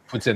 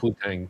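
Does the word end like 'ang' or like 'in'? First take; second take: in; ang. First: The word ends with an 'in' sound. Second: The word ends with an 'ang' sound. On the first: The speaker calls it right. "Putin, not Putang, Putin" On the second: The speaker calls it wrong. "not Putang"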